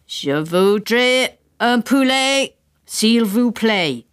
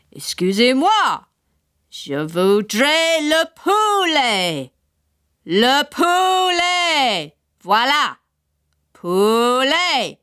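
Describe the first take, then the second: First: Slow careful English French; English-accented French. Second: Slow high over-clear French; louder repeat. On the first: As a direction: spell it out in school French. Father asks in French. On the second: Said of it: "repeated ... a bit louder". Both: A narrator's reading.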